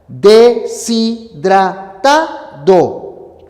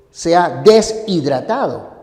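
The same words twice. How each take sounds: First: "Deshidratado" muy lento y fuerte, de-si-dra-ta-do; silabeo fonético. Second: "deshidratado" partido como des-hidratado; pronunciación errónea. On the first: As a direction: separa cada sílaba de "Deshidratado", con la s unida a la i. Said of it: "Esta es la separación fonética". ("Deshidratado" sílaba por sílaba, de-si-dra-ta-do) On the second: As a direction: corta tras "des" en "deshidratado", sin unir la s a la i. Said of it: "Tú no dices". ("deshidratado" mal dicho, des / hidratado) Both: Shown as a demonstration.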